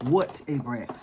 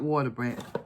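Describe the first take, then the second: First: The first part is split into 'what a'. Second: The first part runs together, sounding like 'water'. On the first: The speaker calls it right. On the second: The speaker calls it wrong. "Not Water Brat. I always say Water Brat"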